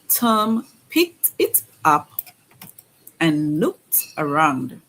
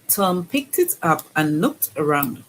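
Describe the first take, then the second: First: The sentence is read at a slower pace. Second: The sentence is read at a faster pace. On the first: "at first we're going to read to get the words" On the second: "we're going to read at a faster pace"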